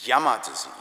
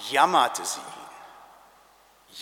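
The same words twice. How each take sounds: First: Said in the usual way. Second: Jammerte sie ihn drawn out very slowly; slow emphasis. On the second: Shown as a demonstration.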